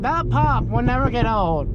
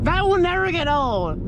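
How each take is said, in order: First: Said in the usual way. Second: Excited. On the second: Real, not acted. Thrilled after the engine pop.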